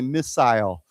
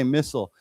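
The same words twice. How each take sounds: First: The second syllable has a long 'eye' vowel. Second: The second syllable has a short, reduced vowel. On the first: "they use a longer I where they say missile" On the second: "like I say missile"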